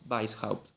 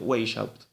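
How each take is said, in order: First: The name is split into its two parts. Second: The name runs together as one blended word. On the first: The speaker calls it right. "como en alemán eh, es un apellido compuesto, es Weishaupt" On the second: The speaker calls it wrong. "Que algunos pronuncian Weishaupt"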